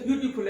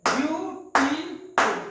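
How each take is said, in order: First: Said in the usual way. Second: beautiful slow and loud in three separate beats, ब्यू-टी-फुल; clapped syllables. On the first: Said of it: "clapping method से भी". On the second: Shown as a demonstration. Teacher showing clapping method, beautiful broken syllable by syllable. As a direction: punch out each syllable of beautiful, higher and slower. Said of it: "this is called clapping method".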